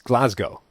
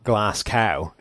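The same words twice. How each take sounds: First: It is pronounced like the Scottish city's name. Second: It is pronounced unlike the Scottish city's name. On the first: This matches the city the name comes from. The speaker calls it right. "That's what the city it's named after is pronounced" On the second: This is how the player says his own name. The speaker calls it wrong. "The man's name is not Glasgow"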